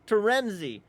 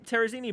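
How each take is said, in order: First: The name has three syllables, with an n. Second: The name has an extra syllable, without an n. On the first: The speaker calls it right. "it's the Terenzi brothers" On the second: The speaker calls it wrong. "I'm pretty sure that's what she said"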